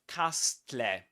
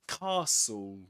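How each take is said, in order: First: An extra consonant sound is pronounced in the word. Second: The extra consonant sound is left silent. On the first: The speaker calls it wrong. "We don't say castle" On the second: The speaker calls it right. "We say ca castle"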